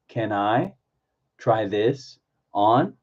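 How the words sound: The words are grouped into small chunks. "Chunk it"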